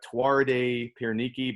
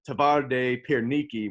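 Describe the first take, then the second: First: The first word begins with a W sound. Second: The first word begins with a V sound. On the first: This is how an English reader would say it. "It looks like Tuarde Pierniki" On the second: This is how the locals say it. "the W's are V's, so they pronounce it"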